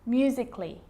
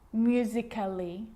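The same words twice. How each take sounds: First: No extra vowel is sounded before the final ly. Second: An extra vowel is sounded before the final ly. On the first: The speaker calls it right. "Cut the A out" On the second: The speaker calls it wrong. "I'm not pronouncing"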